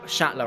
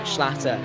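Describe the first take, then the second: First: No L sound follows the opening sh. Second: An extra L sound follows the opening sh. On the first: The speaker calls it right. "or Shatler, I should say" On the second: The speaker calls it wrong. "There's no a second L"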